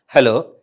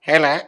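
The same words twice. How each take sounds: First: It is said in his own normal voice. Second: It is said in a put-on puppet voice.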